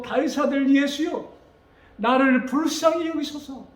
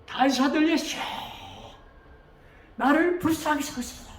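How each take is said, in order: First: High, fervent cry for mercy; earnest prayerful appeal, pitched up; earnest plea. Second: Acted beggar's cry, pitched high; louder desperate cry. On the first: Acted. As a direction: plead with God, voice raised. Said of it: "정말로 간절한 마음으로". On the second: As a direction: call out from afar, begging for mercy. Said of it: "더 크게".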